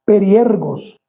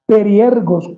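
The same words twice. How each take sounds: First: Periergos repetido, firme y bajando al final; pronunciation demo. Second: Periergos dicho claro, acento en la e de -er-, cayendo al final; pronunciation demo. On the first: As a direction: repite Periergos con la G bien marcada. (Periergos otra vez, claro y descendente) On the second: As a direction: pronuncia Periergos sílaba por sílaba. (Periergos, bien articulado y con tono final descendente) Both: Shown as a demonstration. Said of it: "como suena con G y tilde en la I".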